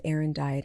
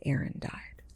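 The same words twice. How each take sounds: First: Said in the usual way. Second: Whispered, much softer disbelief; stunned whisper. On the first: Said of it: "I walked in the door and I said". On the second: Retold or imitated. Father hearing his son died, stunned whisper. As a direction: breathe it out in shock. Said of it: "And he said".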